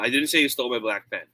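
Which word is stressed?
none. No single word is strongly stressed. It is a plain statement. "If I'm going to say it like that, so natural"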